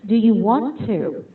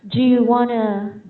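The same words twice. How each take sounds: First: Each word is said fully and separately. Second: The words are shortened and run together. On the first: This is the more formal British way. "for British, they would basically mention everything" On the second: This is how Americans usually speak. "for Americans, they would usually say"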